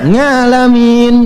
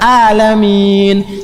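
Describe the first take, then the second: First: The word begins with an 'nga' sound. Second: The word begins with a plain 'a' vowel. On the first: It means all the worlds. The speaker calls it right. "Bukan a, bukan a, nga" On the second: It means sick people. The speaker calls it wrong. "Tuhannya orang-orang sakit. Salah. Fatal"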